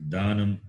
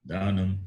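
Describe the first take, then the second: The two takes are said the same way.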